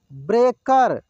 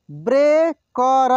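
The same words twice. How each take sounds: First: Said in the usual way. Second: breaker drawn out slowly, syllable by syllable; slow sounding out. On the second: Shown as a demonstration. Teacher slowly sounds out breaker for students. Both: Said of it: "एक एक मात्रा को अलग अलग करके".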